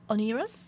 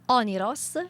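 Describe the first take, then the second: First: The name is said with English pronunciation. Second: The name is said with Italian pronunciation. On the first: "An English ver- version is" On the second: "an Italian version is"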